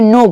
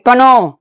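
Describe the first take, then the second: First: The word starts with an n sound. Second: The word starts with a k sound. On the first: The speaker calls it right. "के का आवाज निकालना नहीं" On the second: The speaker calls it wrong. "क्या बोलेंगे, कनो, नहीं बोलेंगे"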